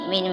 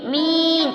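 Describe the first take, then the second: First: The vowel is kept short. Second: The vowel is stretched out long. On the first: The speaker calls it right. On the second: The speaker calls it wrong.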